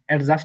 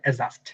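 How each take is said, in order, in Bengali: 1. j-এর আগে একটি d ধ্বনি শোনা যায়। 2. j-এর আগে কোনো d ধ্বনি শোনা যায় না। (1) "বলা যাবে না" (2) "বলা যাবে"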